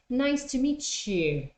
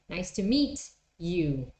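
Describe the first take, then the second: First: Meet and you join with a ch. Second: Meet and you stay separate with a t.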